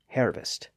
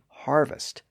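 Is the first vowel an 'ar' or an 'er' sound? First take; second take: er; ar. First: The first vowel is an 'er' sound. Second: The first vowel is an 'ar' sound. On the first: This is the older pronunciation. "previously pronounced harvest" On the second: This is the modern pronunciation. "kept the newer R sound"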